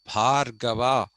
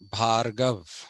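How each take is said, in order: First: The final 'a' vowel is pronounced. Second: The final 'a' vowel is dropped.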